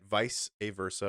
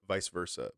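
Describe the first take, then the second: First: An extra 'uh' syllable comes after vice. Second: Vice runs straight into versa without 'uh'. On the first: "Because there's an A in there" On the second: "the phrase can be pronounced"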